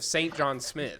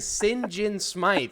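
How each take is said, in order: First: The name sounds like 'Saint John Smith'. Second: The name sounds like 'Sin Jin Smythe'. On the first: This is how the name looks when written. "instead of Saint John Smith" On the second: This is how the game's characters say the name. "they keep saying Sin Jin Smythe"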